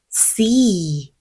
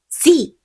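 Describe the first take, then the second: First: The vowel is drawn out long. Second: The vowel is short and clipped. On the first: The speaker calls it right. "C 소리 늘려주실게요" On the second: The speaker calls it wrong. "C 아니고"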